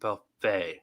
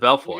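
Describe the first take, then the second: First: The last syllable ends with an 'ay' sound. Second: The last syllable ends with an 'oy' sound. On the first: The speaker calls it right. "It's to Belfay" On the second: The speaker calls it wrong. "I keep getting it wrong"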